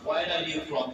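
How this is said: It is said normally, stress on from.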